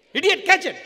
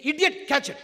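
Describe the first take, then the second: First: Full shout, much higher and louder; shouted insult. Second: A firm loud jab; mock insult. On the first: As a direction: yell it like you mean it this time. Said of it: "Come on, of you". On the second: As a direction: call it out loud, raised pitch. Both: Shown as a demonstration.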